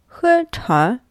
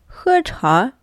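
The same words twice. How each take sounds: The two takes are said the same way.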